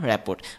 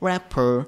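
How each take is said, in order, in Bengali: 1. শব্দটি একটি স্পষ্ট t ধ্বনি দিয়ে শেষ হয়। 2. শব্দটি কোনো t ধ্বনি ছাড়া শেষ হয়। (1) "এরকম প্রনাউন্সিয়েশন না" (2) "এটা প্রনাউন্সিয়েশন হচ্ছে র্যাপার"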